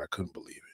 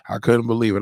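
First: Hushed, breathy whisper of disbelief. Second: Louder, emphatic repeat; loud disbelief. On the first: Host whispering his disbelief to viewers, hushed whisper. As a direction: whisper it like a secret. Whispered aside, then repeated aloud. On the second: Host repeating his disbelief to viewers, emphatic and louder. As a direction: say it out loud now, full voice. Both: Acted.

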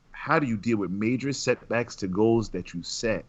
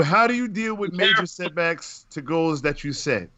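First: Said in the usual way. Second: "How do you deal" launched high, then falling; raised-pitch reading. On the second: Real, not acted. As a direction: read the question out high and animated. First reading of listener's question.

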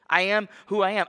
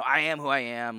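First: "I am who I am" declared louder and higher, weighty; bold, ringing declaration; grand proclamation. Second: Tossed off, like whatever; offhand, careless, like it means nothing; dismissive shrug. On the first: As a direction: proclaim it as a majestic statement, not a shrug. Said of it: "fantastic and beautiful statement". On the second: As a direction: say it as a throwaway shrug, not a grand claim. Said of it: "like, whatever". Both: Shown as a demonstration.

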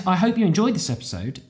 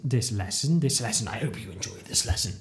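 First: Said in the usual way. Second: Low, softening scripture-like recital; mock Bible phrase. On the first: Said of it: "no, I did". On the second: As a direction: repeat it like a mock blessing, sinking lower and quieter. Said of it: "trying to make some sort of Bible phrase".

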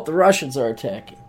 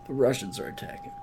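First: Said in the usual way. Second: Much softer and fast; quick quiet aside. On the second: Shown as a demonstration. Joking aside to the audience, soft and fast. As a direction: toss it off under your breath. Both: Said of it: "repeats the line two ways".

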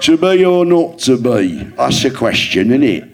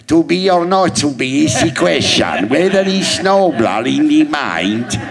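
First: Mock regional-accent Hamlet; regional accent Shakespeare. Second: Slow, hammed-up Shakespeare in a put-on accent, pitched higher; mock theatrical Hamlet in a funny accent. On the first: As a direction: toss off Hamlet like a bloke down the pub. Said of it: "Shakespeare in regional accents". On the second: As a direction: ham up Hamlet in a silly foreign accent. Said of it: "to her, I sounded like".

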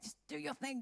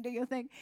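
First: Soft, hushed encouragement; quiet urging. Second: Said in the usual way. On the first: Retold or imitated. Staff quietly telling Susie to go pray. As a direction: nudge her on quietly.

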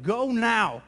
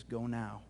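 First: Mild mock yell of a command; retold yell. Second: Low, soft voice of the Holy Spirit; quiet command. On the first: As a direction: raise the voice a little, imitating an order. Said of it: "I just feel like he yelled at me". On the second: Retold or imitated. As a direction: drop low and hushed, a calm order. Holy Spirit speaks into silence.

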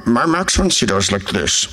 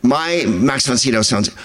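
First: Put-on actor impression; Max von Sydow. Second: Said in the usual way. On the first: Shown as a demonstration. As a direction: do a badly faked screen-actor voice.

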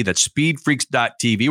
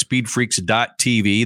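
First: Said in the usual way. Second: "speedfreaks dot T V" said slowly, each letter spaced; radio host spelling the website slowly; slow spelled-out plug. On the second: Shown as a demonstration.

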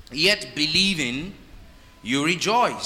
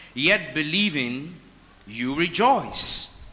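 First: Said in the usual way. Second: Drawn-out, every word weighed; slow down and savour the verse; slow emphatic reading. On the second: Shown as a demonstration. Preacher lingering over the verse for the congregation, slow and emphatic.

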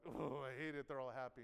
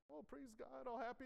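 First: Low, grumbled imitation of resentment; mock resentment. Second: High, light imitation of happy worshippers; mock happy. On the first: Preacher voices an angry churchgoer watching the happy ones, mock resentment. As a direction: groan it with sour mock envy, pitched down. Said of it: "And you're like". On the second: Preacher imitates the happy churchgoers praising God, mock happy. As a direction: imitate cheerful praise, pitched up and soft.

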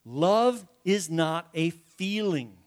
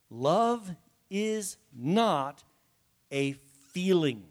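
First: "Love is not a feeling" slow and deliberate, in one run; repeated for emphasis. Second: "love is not a feeling" very slow, a pause before "a feeling"; emphatic, word by word. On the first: Preacher repeating his point to congregation, slow emphasis. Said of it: "say this for emphasis". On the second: Preacher making it plain to congregation, very slow emphasis. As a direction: spell out "love", "not" and "feeling" one at a time. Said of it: "say this for emphasis again". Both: Real, not acted.

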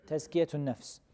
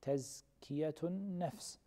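First: Said in the usual way. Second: Each syllable of Tazkiyatun nafs drawn out slowly and softly; slow model answer. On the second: Shown as a demonstration. Teacher gives students the term, slowly and softly. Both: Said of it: "What do we call it?".

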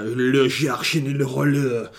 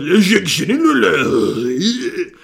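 First: Slow mock French that comes out like mock Japanese; botched French. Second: Slow, higher, louder hammed-up French accent; mock French. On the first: Naming a favourite film, a botched mock French accent. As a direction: drawl the title in a bad fake foreign accent. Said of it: "I don't know why I did Japanese". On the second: Retrying the film title properly, a hammed-up French accent. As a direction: ham up the French title, stretching each word. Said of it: "Tried to do French".

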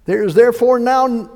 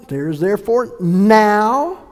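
First: Said in the usual way. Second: "now" drawn out long and loud; stress on now. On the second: Real, not acted. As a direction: hold and swell the word "now". Verse repeated to land on now.

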